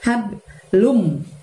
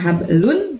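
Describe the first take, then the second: First: The word ends with a held m sound. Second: The word ends with a clear n sound. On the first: The speaker calls it right. "tapi hablum" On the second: The speaker calls it wrong. "bukan hablun"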